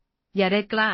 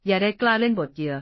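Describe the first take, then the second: First: A touch of a raised growl; roaring. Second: Repeated raised growl; roaring. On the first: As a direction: warn her off, pitched up and louder. (ตะคอกคำราม เสียงสูงและดังขึ้นเล็กน้อย) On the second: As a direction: press the threat, pitched up and louder. (คำรามซ้ำ เสียงสูงและดังขึ้น) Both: A narrator's reading. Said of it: "ด้วยเสียงคำราม".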